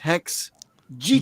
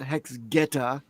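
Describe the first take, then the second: First: The second word begins with a J sound. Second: The second word begins with a hard G. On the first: It sounds like the word cheetah. The speaker calls it right. "it's Hex Jita" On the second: It sounds like the name of a traditional Japanese shoe. The speaker calls it wrong. "I know now that it's not Hex Geta"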